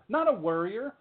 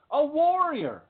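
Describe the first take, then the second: First: "worrier" said WUR-ee-er, as the rejected word; raised pitch on "worrier", first vowel as in "her". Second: "warrior" drawn out high as WAWR-ee-er; high, emphatic WAWR in "warrior"; warrior, with an OR vowel. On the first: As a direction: make "worrier" clearly WUR, not WAR. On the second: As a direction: ring out "warrior" with a wide OR vowel. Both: Shown as a demonstration.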